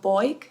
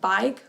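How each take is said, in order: First: The vowel sounds like 'oy'. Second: The vowel sounds like 'eye'.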